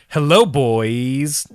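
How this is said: It is said with a joking, exaggerated inflection. The greeting is meant as a joke. The speaker calls it wrong. "I added that inflection. I was trying to be funny"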